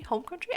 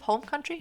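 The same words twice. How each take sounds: First: "Home country" much higher and softer, rising in doubt; questioning echo. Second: Said in the usual way. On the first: Real, not acted. Unsure what you say here, "Home country" as a high, soft question. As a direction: query "Home country" quietly with a high rise. Querying her own choice of words.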